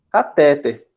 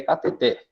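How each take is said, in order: First: Catéter said ca-TÉ-ter; everyday stress on middle syllable. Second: Cateter said ca-te-TÉR; stress on final syllable. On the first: Retold or imitated. Student quoting what everybody says, catéter stressed on middle TÉ. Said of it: "não é a forma correta". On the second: Shown as a demonstration. Teacher correcting the common form, cateter stressed on final TER. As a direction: land firmly on the last syllable TER of cateter. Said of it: "O som mais forte vai lá no final".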